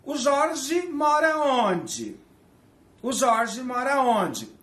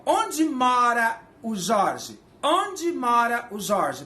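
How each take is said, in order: First: High, slow "mora" drawn out; slow teaching example, pitched up; slow demo question. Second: Slow, stressed "onde" up front; slow teaching example with "onde" stressed; slow demo question. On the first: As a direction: model the Portuguese word order slowly and higher. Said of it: "em português eu pergunto assim". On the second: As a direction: put "onde" first and say it slowly. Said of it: "Em inglês é assim?". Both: Shown as a demonstration.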